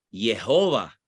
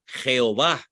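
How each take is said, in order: First: Jehová said "ye-HO-va", with a y sound at the start; Jehová as "Yehova", not with a Spanish j; English-style Jehová. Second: Jehová said "kheo-VÁ", with a Spanish j at the start; Jehová as "Jeová", ending on a stressed á; Castilian Jehová. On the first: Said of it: "para que se leyera en inglés". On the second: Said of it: "o en español, castellano". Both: Shown as a demonstration.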